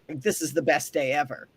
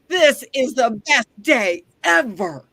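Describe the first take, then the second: First: It is said hesitantly, with little energy. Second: It is said brightly, with lots of energy. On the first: The speaker doubts the day will be good. "sometimes it's just in how you say it" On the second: The speaker truly expects a great day.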